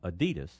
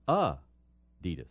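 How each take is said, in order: First: The name is said the common everyday way. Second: The name is said the original brand way. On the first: This is how most people say it. The speaker calls it wrong. "not Adidas" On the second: This is the brand's real pronunciation. The speaker calls it right. "but it's Adidas"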